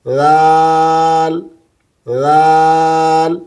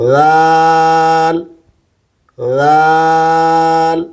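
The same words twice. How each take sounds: No difference in how they are said.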